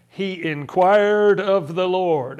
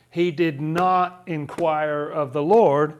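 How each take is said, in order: First: "inquired" drawn out slowly and loud; emphatic contrast. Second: "not" set apart, slow and weighty; emphatic contrast. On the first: Pointing the class to a contradiction, slow stress on "inquired". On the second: Reading out the contradicting verse, slow stress on "not". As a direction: slowly stress "not" against the earlier verse. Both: Shown as a demonstration.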